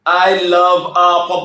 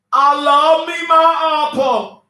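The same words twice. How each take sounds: First: Said in the usual way. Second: High, slow, drawn-out crooning; mock swooning. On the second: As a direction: croon it like a lovesick fool. Drawn-out mock swoon over her man.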